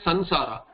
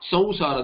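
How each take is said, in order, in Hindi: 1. नासिका ध्वनि स्पष्ट 'n' ध्वनि जैसी लगती है। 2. नासिका ध्वनि नासिकीकृत 'w' ग्लाइड जैसी लगती है। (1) "In North they'll say Sansara, it becomes Nakara" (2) "there is an au kind of a pronunciation"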